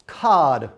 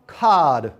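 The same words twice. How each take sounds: No difference in how they are said.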